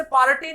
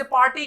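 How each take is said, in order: First: पार्टी as "paa-ra-ti"; pronunciation to avoid. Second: पार्टी as "paa-ti", r hardly sounded; usual pronunciation. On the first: Teacher showing the unused form, पार्टी as "paarati". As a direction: give the r in पार्टी a syllable. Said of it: "लेकिन कोई इसे पार्टी नहीं बोलता". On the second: Teacher giving the real form, पार्टी as "paati". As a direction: say पार्टी in two syllables. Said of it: "इसे पार्टी कहते हैं". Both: Shown as a demonstration.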